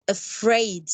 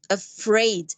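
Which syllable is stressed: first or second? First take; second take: second; second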